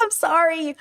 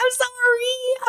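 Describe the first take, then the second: First: Moderately high apology, coming down; re-enacted sorry, easing down; repeated apology. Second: Very high, drawn-out sorry; high re-enacted sorry; squealed apology. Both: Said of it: "and I was like".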